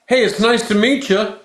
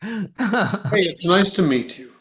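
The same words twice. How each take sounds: First: It is said high-pitched and fast. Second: It is said lower-pitched and slower.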